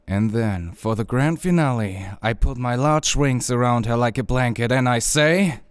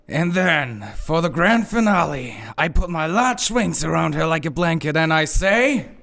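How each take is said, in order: First: It is said with moderate energy. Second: It is said with much more energy.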